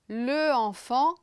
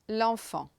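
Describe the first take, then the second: First: The article keeps its own vowel before the noun. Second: The article's vowel drops and merges with the noun. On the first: The speaker calls it wrong. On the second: The speaker calls it right.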